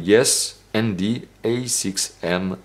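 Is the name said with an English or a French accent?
English. It is said with an English accent. "avec mon très bon accent anglais"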